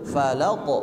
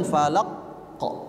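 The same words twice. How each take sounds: First: "Falaq" with the q rebounding at once into a short o; bouncing qalqalah. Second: "falaq kok" with the q pressed shut, a pause before the bounce; wrongly held qalqalah. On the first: Teacher shows correct way, "Falaq" with immediate echo. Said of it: "dia langsung memantul". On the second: Teacher warns pupil against pressing, "falaq kok" split by a stop. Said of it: "jangan ditekan". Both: Shown as a demonstration.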